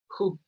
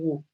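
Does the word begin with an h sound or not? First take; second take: yes; no. First: The word begins with an h sound, like 'ju'. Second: The word does not begin with an h sound. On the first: The speaker calls it right. "J U se pronuncia" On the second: The speaker calls it wrong. "No digan who"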